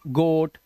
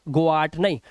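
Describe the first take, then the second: First: The vowel is a single long o sound. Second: The vowel is split into o then a. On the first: The speaker calls it right. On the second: The speaker calls it wrong.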